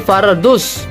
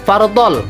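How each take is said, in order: First: The word ends in a z sound. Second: The word ends in an l sound. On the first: The speaker calls it right. "tetapi faraduz" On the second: The speaker calls it wrong. "bukan fardol"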